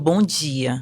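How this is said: It is said in a Ceará regional accent. This is how the local people greet. "aqui no Ceará fala muito bom dia"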